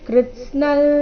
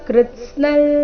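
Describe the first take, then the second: Both takes have the same delivery.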